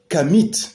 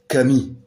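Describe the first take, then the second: First: The word ends with an audible t sound. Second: The word ends on a vowel, no t sound. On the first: The speaker calls it wrong. "on ne dit pas non plus Kamit" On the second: The speaker calls it right. "on dit Kami"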